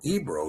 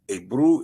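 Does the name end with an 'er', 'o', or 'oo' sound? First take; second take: o; oo. First: The name ends with an 'o' vowel sound. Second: The name ends with an 'oo' vowel sound. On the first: The speaker calls it wrong. "or Ebro even" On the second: The speaker calls it right. "Ebru is the correct way to pronounce it"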